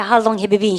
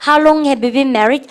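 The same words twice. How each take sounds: First: Said in the usual way. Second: Stretched, louder model sentence; slow classroom repeat-after-me; very slow drill reading. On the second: Shown as a demonstration. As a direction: say it slowly so students can follow. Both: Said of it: "시작".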